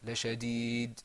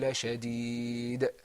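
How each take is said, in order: First: The final d stops flat without a bounce. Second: The final d releases with a bouncing echo. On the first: The speaker calls it wrong. "it wasn't" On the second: The speaker calls it right. "you're going to hear a kind of bouncing sound"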